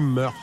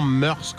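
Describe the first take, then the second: First: The word ends without any s sound. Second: The word ends with an audible s sound. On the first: The speaker calls it right. "En fait, ça se dit mœurs. ... il n'y a pas le S" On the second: The speaker calls it wrong. "On dit souvent mœurs, comme je viens de le dire"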